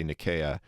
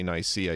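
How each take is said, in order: First: Nicaea said "nih-KAY-uh"; hard k in Nicaea, stress on KAY; Greek-style pronunciation. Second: Nicaea said "nigh-SEE-uh"; Anglicised Nicaea, "nigh-SEE-uh"; English pronunciation. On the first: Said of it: "you must say Nicaea". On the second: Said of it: "you must never say Nicaea". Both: Shown as a demonstration.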